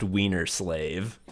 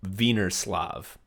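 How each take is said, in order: First: "Wiener slave" with English W and "slave" rhyming with brave; corrected pronunciation. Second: "Wienerslav" with V for W, ending in "slahv"; careful foreign-style "Wienerslav"; mispronounced name. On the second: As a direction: read "Wienerslav" slowly as a German name, "Veener-slahv". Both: Retold or imitated. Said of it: "it's pronounced Wiener slave".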